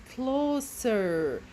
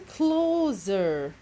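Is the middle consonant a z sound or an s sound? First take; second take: s sound; z sound. First: The middle consonant is a hissing s sound. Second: The middle consonant is a buzzing z sound. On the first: The speaker calls it right. "This is a closer" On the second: The speaker calls it wrong. "This is not a closer"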